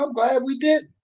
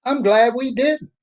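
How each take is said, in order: First: Said in the usual way. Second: "I'm glad we didn't" said slowly and louder, leaning on "didn't"; emphatic slow restatement; slow emphatic repeat. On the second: Real, not acted. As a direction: drive "didn't" home slowly, as the point.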